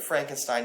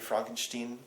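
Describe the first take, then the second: First: The ending starts with a plain st sound. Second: The ending starts with a sht sound. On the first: The speaker calls it wrong. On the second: The speaker calls it right.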